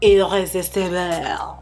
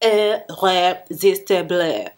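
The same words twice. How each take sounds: First: It is said with a plain English accent. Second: It is said with a put-on French accent.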